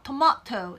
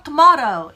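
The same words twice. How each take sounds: First: Tomato with a clear, crisp t in the middle. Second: Tomato with the middle t softened to a flap; soft T in tomato. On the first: Teacher showing students a crisp t pronunciation. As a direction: give the t in tomato its full sound. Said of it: "T 발음을 좀 더 살려서". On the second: Teacher showing students a soft t pronunciation. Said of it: "T를 조금 더 부드럽게 해서". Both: Shown as a demonstration.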